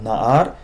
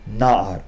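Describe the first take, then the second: First: The stress is on the last syllable. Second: The stress is on the first syllable. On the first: The speaker calls it wrong. "It's not Na'ar" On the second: The speaker calls it right. "but rather Na'ar"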